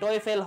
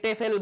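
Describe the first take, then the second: First: It begins with 'toh' gliding into 'weh'. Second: It begins with a short 'teh' sound. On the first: "টোয়েফেল হয়" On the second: "অনেকে টেফেল বলে"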